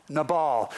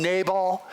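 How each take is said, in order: First: Nabal as nuh-BALL, stress on the second syllable. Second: Nabal as NAY-bul, stress on the first syllable. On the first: Preacher giving the reading he uses, Nabal as nuh-BALL. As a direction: say Nabal with a short uh then BALL. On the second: Preacher naming the other reading, Nabal as NAY-bul. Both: Shown as a demonstration. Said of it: "Some people call him".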